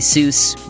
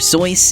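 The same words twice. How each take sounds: First: The name has its common American pronunciation. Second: The name has its original, non-American pronunciation. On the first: "most people in the U S at least say Seuss" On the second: "the proper pronunciation of his pen name is apparently Seuss"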